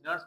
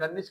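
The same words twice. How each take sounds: First: "नर्स" said as one syllable, like Nerns; pronounced Nerns. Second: "नर्निस" said in two syllables, ending in -nis; pronounced Nernis. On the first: Teacher showing students the other variant, "नर्स" pronounced as one syllable. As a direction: say "नर्स" without any vowel before the final s. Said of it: "कुछ नर्स पढ़ते हैं". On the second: Teacher showing students one variant, "नर्निस" pronounced as Ner-nis. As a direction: say "नर्निस" with an extra "ni" before the final s. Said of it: "कुछ लोग नर्निस पढ़ते हैं". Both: Shown as a demonstration.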